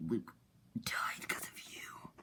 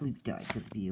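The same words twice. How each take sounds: First: Slow, voiceless whisper; whispered accusation. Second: Said in the usual way. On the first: Retold or imitated. Bloodman accuses the scar guy over Luke, slow whisper. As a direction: whisper it slowly as an acted accusation.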